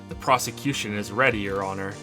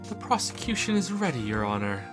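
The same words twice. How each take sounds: First: It is said in a plain, ordinary voice. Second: It is said in a fancy, posh voice.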